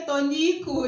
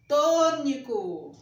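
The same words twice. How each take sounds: First: Tônico with a punched middle NI; stress on NI. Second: Tônico slowly, with a long, loud TÔ; stress on TÔ. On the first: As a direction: move the stress of "tônico" onto NI. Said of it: "se você pronunciar errado, a sílaba tônica no ni". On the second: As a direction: stretch the first syllable of "Tônico". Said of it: "A sílaba tônica é no to". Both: Shown as a demonstration.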